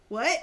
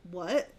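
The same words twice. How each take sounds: First: Exaggerated cartoon double-take "What?"; cartoonish shock. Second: Said in the usual way. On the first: Wife imitating husband hearing of the pregnancy, cartoonish shock. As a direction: blurt it like a stunned cartoon character. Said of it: "Like something you see in a cartoon". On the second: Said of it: "He's like this".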